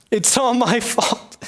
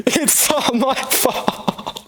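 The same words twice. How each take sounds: First: Slow moaning blame; self-pitying lament. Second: Slow, high wail of self-blame; higher, slower than the first wail; wailing lament.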